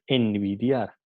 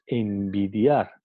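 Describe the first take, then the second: First: "envidiar" with a clear tongue-tip n before the b; wrong pronunciation. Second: "envidiar" slowly, with lips closed for an m before the b, as "embidiar"; right pronunciation. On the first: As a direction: say "envidiar" keeping an alveolar n, as the wrong form. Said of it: "no decimos envidiar". ("envidiar" con n alveolar, la forma incorrecta) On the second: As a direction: say "envidiar" the correct way, turning the n into m. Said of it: "decimos envidiar". ("envidiar" despacio, con m bilabial ante la b) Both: Shown as a demonstration.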